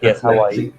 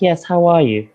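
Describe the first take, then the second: First: The voice is deeper, in a Nigerian way. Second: The voice is lighter, in a London way.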